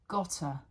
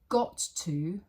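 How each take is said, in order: First: The words are reduced, with one t. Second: Both words are said in full.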